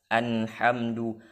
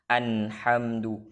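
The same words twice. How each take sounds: The two takes are said the same way.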